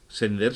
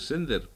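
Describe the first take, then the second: First: The stress is on the second syllable. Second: The stress is on the first syllable. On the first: The speaker calls it right. "sender se pronuncia así, como vender, como tender" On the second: The speaker calls it wrong. "Si tuviera acento en la primera E, habría que decir sender"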